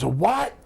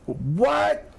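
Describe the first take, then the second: First: Higher, rising puzzled question; baffled Chief. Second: Very high, incredulous squawked question; baffled Chief. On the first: Old boss hears of surge protectors, baffled. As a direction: imitate a man who has no idea what that is. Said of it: "He goes". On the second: Old boss still lost on surge protectors, utterly baffled. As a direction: imitate total bafflement, pitch leaping way up. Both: Retold or imitated.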